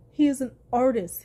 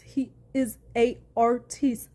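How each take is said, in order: First: Said in the usual way. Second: "artiste" stretched slowly with stress on the drawn-out second syllable, ar-TEESTE; mock-grand artiste. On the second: Vlogger echoing Amber's mockery of Johnny, "artiste" pronounced mock-grandly as ar-TEESTE. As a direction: say "artiste" slowly, French-style, ending in a long "teest". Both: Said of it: "as Amber tried to mock him".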